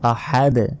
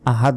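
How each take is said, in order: First: The final d ends with a bouncing release. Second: The final d is plain with no bounce. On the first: The speaker calls it right. "শেষে ধাক্কা দিতে হবে" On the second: The speaker calls it wrong. "আহাদ নয়"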